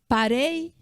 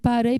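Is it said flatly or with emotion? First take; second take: with emotion; flatly. First: It is said with strong emotion. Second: It is said flatly, without emotion.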